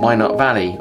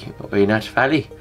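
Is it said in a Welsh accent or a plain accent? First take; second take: plain; Welsh. First: It is said in his ordinary accent. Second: It is said in a Welsh accent.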